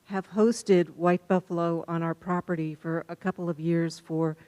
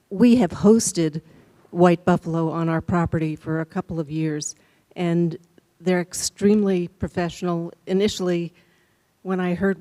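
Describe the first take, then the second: First: Muffled by mask. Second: Speaking up. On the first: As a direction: talk through a face mask, barely projecting. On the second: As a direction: project clearly so the room hears. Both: Real, not acted. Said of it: "can you speak up a little bit".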